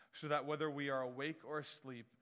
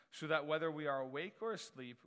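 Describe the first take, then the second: The two takes are said the same way.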